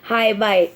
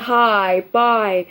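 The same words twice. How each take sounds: First: The vowels are at normal length. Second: The vowels are stretched out long. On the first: "इसको normally भी बोल सकते हैं" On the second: "बहुत ही इसको एलोंगेट करके प्रोनाउंस कर रही हूँ"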